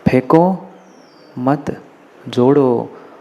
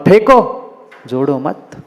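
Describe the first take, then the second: First: The pause comes after 'मत'. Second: The pause comes after 'फेंको'.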